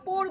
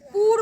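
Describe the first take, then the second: First: The vowel is a plain 'oh'. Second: The vowel is a plain 'oo'. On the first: "পোর বলবে না" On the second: "পুর বলবে না"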